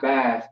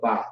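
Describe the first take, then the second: First: BATH with a final th sound; wrong pronunciation. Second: BA with no English "bath" sound; corrected pronunciation. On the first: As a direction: end "bath" on an audible th. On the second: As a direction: open "ba", no th hiss at the end. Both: Shown as a demonstration. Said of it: "not bath, but ba".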